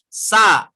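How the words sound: The s is pushed out with much breath. The speaker calls it wrong. "Kalau gini, sa itu terlalu banyak"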